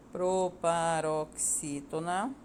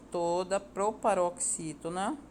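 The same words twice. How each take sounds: First: "Proparoxítona" drawn out syllable by syllable, ending on a rise; stretched syllables in "Proparoxítona", left open at the end; slow dictation. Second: Said in the usual way. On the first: Real, not acted. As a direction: dictate "Proparoxítona" slowly for copying. Dictates word for students to write.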